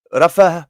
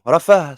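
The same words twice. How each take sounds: First: Rafa with a rolled front r; mispronounced Rafa. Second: Rafa with a throaty r at the back; corrected Rafa. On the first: Teacher's first try at "Rafa", trilled r, before correcting. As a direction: say "Rafa" with a trilled r, slip of the tongue. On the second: Teacher correcting himself for the class, guttural "Rafa". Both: Shown as a demonstration.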